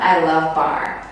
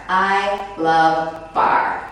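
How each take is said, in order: First: Said in the usual way. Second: "I love bar." drawn out slowly, each word leaned on; slow emphatic I love bar. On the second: Shown as a demonstration. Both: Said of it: "I cannot say it enough".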